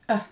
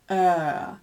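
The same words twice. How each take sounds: First: The vowel is held only briefly. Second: The vowel is held for a long time. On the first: "So the short one" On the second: "and the long one"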